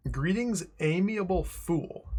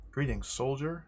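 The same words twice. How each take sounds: First: Mock pompous greeting. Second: Said in the usual way. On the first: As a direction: greet him like a haughty noble. Reading a dialogue option aloud.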